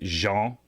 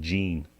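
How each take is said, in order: First: The name is said the French-style way. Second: The name is said like English 'jeans'. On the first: This is how people in Canada tend to say it. "For those of us in Canada, we're probably inclined to say Jean" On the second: This is the listed pronunciation of the name. "instead of Gene"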